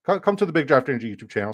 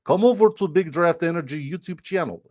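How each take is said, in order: First: Said in the usual way. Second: High mock-Russian plug; Russian accent. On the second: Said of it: "super good Russian accent".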